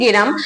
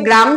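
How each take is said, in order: First: An e vowel splits the g and r. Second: The g and r are joined without a vowel. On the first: "একটা এ ধ্বনি চলে আসছে" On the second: "আমরা বলি গ্রাম"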